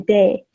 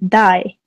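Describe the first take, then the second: First: The vowel sounds like the one in 'say'. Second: The vowel sounds like the one in 'eye'. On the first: The speaker calls it wrong. "wouldn't say day" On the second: The speaker calls it right. "pronounce it dai"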